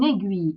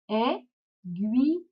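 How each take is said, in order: First: Said in the usual way. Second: "Aiguille" very slowly, ai... gui... lle; cut into syllables. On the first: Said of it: "on va découper le mot". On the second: Shown as a demonstration. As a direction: pause after each syllable of "Aiguille", final e sounded. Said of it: "on va découper le mot comme ça".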